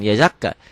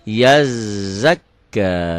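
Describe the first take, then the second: First: The consonants are short and not held. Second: The consonants are doubled and held longer. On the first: The speaker calls it wrong. "bukan yazakka" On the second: The speaker calls it right. "double-double tasdid ya"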